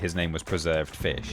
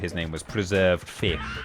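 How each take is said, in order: First: It is said in an ordinary, plain voice. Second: It is said in a special put-on voice. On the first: The speaker calls it wrong. "You can't just say" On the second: The speaker calls it right. "you have to say it in that voice as well"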